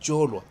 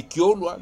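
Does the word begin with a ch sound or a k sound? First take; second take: ch; k. First: The word begins with a ch sound. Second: The word begins with a k sound. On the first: This is how it is said in Kabambangombe. "mais eux ils disent que Cholwa" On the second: This is how it is said in Kabongo. "à Kabong on dit que Kiolwa"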